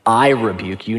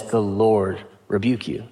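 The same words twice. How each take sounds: First: "I" leaned on, claiming the rebuke for himself; quoting a proud rebuke with weight on "I"; stress on I. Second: "Lord" carried as the key word, said softer; stress on LORD. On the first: Preacher contrasting a self-made rebuke to Satan, stress on "I". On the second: Preacher quoting Michael's rebuke to Satan, stress on "Lord". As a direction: hand the rebuke to God by leaning on "Lord". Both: Retold or imitated. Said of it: "No, he says".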